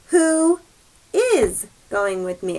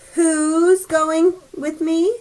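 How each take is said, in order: First: Who and is are said as two words. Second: Who is is shortened into one syllable. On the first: "It means the same thing" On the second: "if we see this contraction, we just read it like whose"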